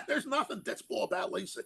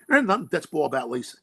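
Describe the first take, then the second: First: Laughing. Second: Said in the usual way. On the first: Real, not acted.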